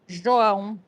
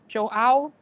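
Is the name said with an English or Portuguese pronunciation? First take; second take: Portuguese; English. First: The name is said with Portuguese sounds. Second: The name is said with English sounds. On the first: "it's a Brazilian name" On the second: "if you would say it in English"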